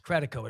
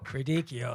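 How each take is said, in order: First: The name is said with a plain 'ko' ending. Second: The name is said with an Italian-style 'kee-oh' ending. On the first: This is how the name really goes. The speaker calls it right. "It's Credico" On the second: This is how someone else says the name. The speaker calls it wrong. "That's the way Chuck Todd would pronounce it"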